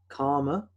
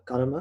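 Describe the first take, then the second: First: It is said with an English accent. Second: It is said with an Indian accent.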